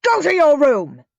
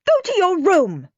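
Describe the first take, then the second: First: Loud, higher angry command; yelling. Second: Loud, much higher angry command; shouting. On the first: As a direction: bark the order at the boy. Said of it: "yelled Dad". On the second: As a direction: shriek the order at him. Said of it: "shouted Mum". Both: A narrator's reading.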